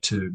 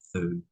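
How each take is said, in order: First: The syllable starts with a plain t sound. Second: The syllable starts with a th sound. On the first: The speaker calls it right. "you say two" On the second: The speaker calls it wrong. "not thu"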